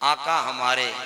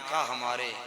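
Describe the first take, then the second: First: It is said with warm, fervent feeling. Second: It is said plainly, without special feeling.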